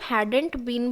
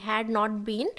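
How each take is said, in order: First: Had and not are merged into one contracted word. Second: Had and not are said as two full words.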